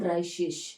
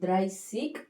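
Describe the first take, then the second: First: The word ends with a soft sh sound. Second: The word ends with a hard k sound. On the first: "ಎಸ್ ಥರನೂ ಹೇಳ್ತಾರೆ" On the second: "ಸಿಗ್ ಅಂತ ನಾವು ಕರಿಬೋದು"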